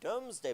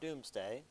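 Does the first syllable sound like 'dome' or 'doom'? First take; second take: dome; doom. First: The first syllable sounds like 'dome'. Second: The first syllable sounds like 'doom'. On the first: The speaker calls it right. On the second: The speaker calls it wrong.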